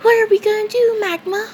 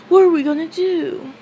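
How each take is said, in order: First: Much higher, louder panicked repeat; rising panic. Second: High, a bit louder worried question; worried Asta. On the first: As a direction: push it up higher, near panic. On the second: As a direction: ask it up high in a panic. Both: Retold or imitated. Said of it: "And Asta says".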